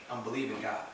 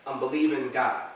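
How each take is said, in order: First: Softer, lower, settled repeat; quiet conviction. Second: Firm falling stress on "believing"; firm declaration. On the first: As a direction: say it low and softly, as settled fact. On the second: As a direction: land "believing" firmly, then let "God" fall. Same declaration repeated, first firm. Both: Real, not acted.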